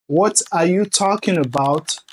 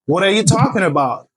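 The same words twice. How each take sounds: First: The T sounds are crisp, clear T sounds. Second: The T sounds are soft, D-like flaps. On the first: The speaker calls it wrong. "au lieu de dire" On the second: The speaker calls it right. "Vous allez dire"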